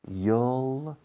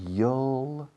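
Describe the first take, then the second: First: It is contracted into a single syllable. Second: It is contracted into a single syllable.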